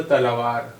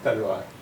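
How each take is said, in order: First: तलवार said as ta-la-vaar, full middle vowel; तलवार with every vowel voiced; spelling pronunciation. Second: Said in the usual way. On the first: Shown as a demonstration. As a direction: read तलवार as spelt. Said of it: "जिस तरह लिखा है उसी तरह करेंगे". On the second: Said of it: "लेकिन हम बोल रहे हैं".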